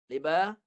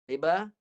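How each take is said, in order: No difference in how they are said.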